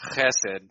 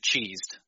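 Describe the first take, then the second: First: It starts with a rough, raspy throat sound. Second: It starts with a plain 'ch' sound. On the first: The speaker calls it right. "You have to get the phlegm going in the throat" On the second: The speaker calls it wrong. "pronounced it cheesed on purpose, just as a joke"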